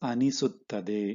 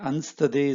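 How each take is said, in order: First: The word is said in full, every syllable. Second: The word is shortened, with syllables dropped. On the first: This is the form used in writing. "Actual written form is ಅನಿಸುತ್ತದೆ is the full form" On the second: This is how people say it in speech. "is the spoken form"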